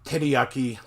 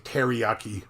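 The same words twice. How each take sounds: First: The r is said close to an l. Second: The r is said as an English r. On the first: The speaker calls it right. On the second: The speaker calls it wrong.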